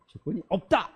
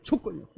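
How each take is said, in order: First: The stress falls on the last word. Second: The stress falls on the first word. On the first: The absence of conditions is made clear. The speaker calls it right. "없다를 강조했어야 되는데" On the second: The key word at the end gets lost. The speaker calls it wrong. "강세를 앞에다 줬어요"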